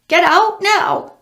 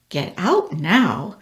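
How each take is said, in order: First: High, loud, slow squawk; parrot voice. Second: Said in the usual way. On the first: Acted. Parrot squawking at the demon, high and loud. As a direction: screech the words like a parrot. Parrot repeats, Sam echoes.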